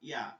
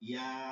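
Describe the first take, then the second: First: The vowel is short and clipped. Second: The vowel is drawn out long. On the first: "এটা হরকতের উচ্চারণ।" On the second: "একটু টান দিয়ে বলতেছি দীর্ঘ করে"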